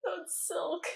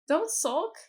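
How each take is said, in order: First: "silk" with a short i, pitched high; mispronounced "sulk". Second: "sulk" with an uh vowel, higher and louder; corrected "sulk". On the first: Reader poking fun at a misread word, "silk" for "sulk". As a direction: repeat the slip "silk" in a high mock voice. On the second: Auntie coaxing her niece, corrected "sulk" pitched up. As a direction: say "sulk" clearly with the uh sound, in character. Rereads the misread word correctly. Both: Shown as a demonstration.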